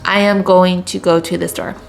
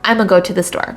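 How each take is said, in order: First: "I am going to" is said fully, word by word. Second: "I am going to" is squeezed into "I'm gonna". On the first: "instead of saying I am or I am going to" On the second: "we would just say I'm a"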